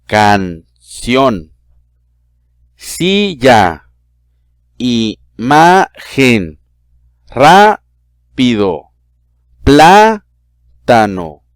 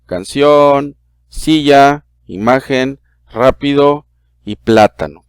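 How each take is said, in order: First: "canción", "silla", "imagen", "rápido", "plátano" said slowly, syllable by syllable; split into syllables. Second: Said in the usual way. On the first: Shown as a demonstration. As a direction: break each word into separate syllables with pauses between them. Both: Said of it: "vamos a separarlas en sílaba".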